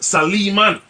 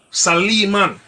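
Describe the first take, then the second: First: The name is said in the Arabic way. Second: The same.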